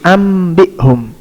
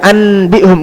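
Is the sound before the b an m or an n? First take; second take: m; n. First: The sound before b is changed to m. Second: The sound before b is a plain n. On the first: The speaker calls it right. "dirubah nunnya menjadi mim" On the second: The speaker calls it wrong. "enggak dibaca anbihum"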